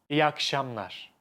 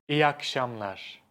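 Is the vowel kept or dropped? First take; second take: dropped; dropped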